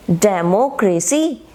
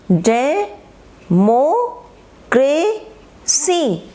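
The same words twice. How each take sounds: First: Said in the usual way. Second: democracy in four long beats, डे, मो, क्रे, सी; syllable by syllable. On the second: Shown as a demonstration. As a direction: break democracy apart, pausing after every stretched syllable. (Democracy को डे, मो, क्रे, सी में तोड़कर, धीरे) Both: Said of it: "अलग-अलग पढ़ेंगे आप".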